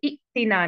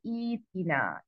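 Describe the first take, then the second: First: इक्तिना with short इ stopped hard before तिना; wrong short इ. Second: ईतिना softer, with ई drawn long into तिना; correct long ई. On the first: Teacher shows what not to read, wrong stopped-vowel pronunciation. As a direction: cut इ off abruptly in इक्तिना. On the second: Teacher gives the right starting form, long-ई pronunciation. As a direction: stretch the ई smoothly in ईतिना. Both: Shown as a demonstration. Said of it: "नहीं पढ़ेंगे".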